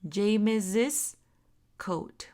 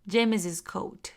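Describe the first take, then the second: First: The phrase is said at a slower pace. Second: The phrase is said at a faster pace.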